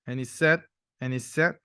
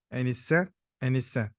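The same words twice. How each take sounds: The two takes are said the same way.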